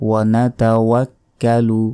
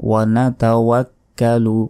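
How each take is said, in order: The two takes are said the same way.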